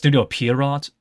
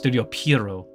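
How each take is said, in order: First: The final T of Pierrot is pronounced. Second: The final T of Pierrot is silent. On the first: The speaker calls it wrong. "This is incorrect" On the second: The speaker calls it right. "because the T is silent"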